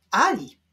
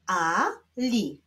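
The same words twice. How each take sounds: First: Said in the usual way. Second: "Ali" as two detached syllables; separate syllables. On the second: Shown as a demonstration. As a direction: leave a clear gap inside "Ali". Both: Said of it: "będziemy odczytywać połączenia".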